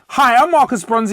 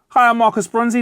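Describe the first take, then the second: First: It is said very loudly and powerfully. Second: It is said slightly louder than normal.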